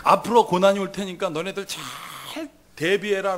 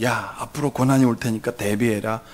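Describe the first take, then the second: First: Slow warning with 잘 drawn out; stretched emphasis. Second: Low, matter-of-fact heads-up; offhand warning. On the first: God supposedly warning believers to prepare, 잘 stretched slowly. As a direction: draw out 잘 before 대비해라. Same warning repeated with stress. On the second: God supposedly warning believers of trouble, offhand. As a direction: warn casually in a low voice. What God does not say. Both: Acted.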